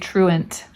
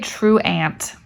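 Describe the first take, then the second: First: The last syllable has a reduced schwa vowel. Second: The last syllable has a full, clear vowel. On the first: The speaker calls it right. "We say truant" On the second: The speaker calls it wrong. "We don't say truant"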